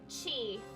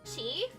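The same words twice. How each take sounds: First: It falls at the end like a statement. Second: It rises at the end like a question.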